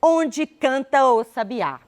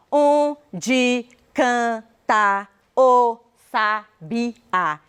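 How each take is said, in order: First: "Onde canta o sabiá" said connected, the final a of canta gliding into o; vowels run together. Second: Every syllable separate and drawn out, very slow. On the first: Teacher showing how one really speaks "canta o", vowels run together. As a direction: link canta and o in one flowing sound, no syllable gaps. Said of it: "Eu falo". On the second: Teacher showing how one does not speak, syllable by syllable. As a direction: chop the verse into isolated syllables. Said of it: "E eu não falo". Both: Shown as a demonstration.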